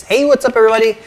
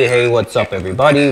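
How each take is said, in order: First: Pitched-up voice changer effect; high, electronic voice filter. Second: Processed, monstrous voice effect; demon voice changer. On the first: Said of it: "use the buttons to change the voice". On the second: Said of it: "demon episode". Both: Shown as a demonstration.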